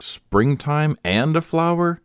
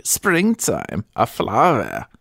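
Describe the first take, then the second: First: Said in the usual way. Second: Put-on "springtime, a flower" in a thick German accent, high on "springtime"; German-accented praise, each image set apart; strong German accent. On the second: A narrator's reading. German attendant praising her mistress, strong German accent. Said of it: "with a strong German accent".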